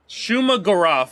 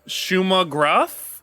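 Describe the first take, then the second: First: The second part is said as two syllables. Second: The second part is said as one syllable. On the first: The speaker calls it right. "I believe is how you say it" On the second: The speaker calls it wrong. "I'm probably gonna botch the pronunciation here"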